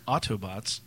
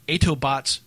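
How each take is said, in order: First: The first vowel is an 'aw' sound. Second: The first vowel is not an 'aw' sound. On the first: The speaker calls it right. "It's Autobots with an A-U" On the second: The speaker calls it wrong. "I will pronounce it the way he had it written"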